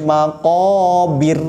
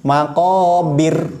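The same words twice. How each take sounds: No difference in how they are said.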